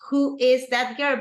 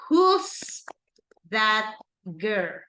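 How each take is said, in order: First: Who and is are said as separate words. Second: Who and is merge into one syllable. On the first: "you can say who is that girl" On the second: "you can also do a contraction"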